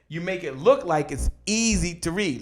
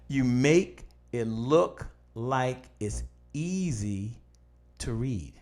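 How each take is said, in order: First: It is said at normal speed. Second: It is said more slowly.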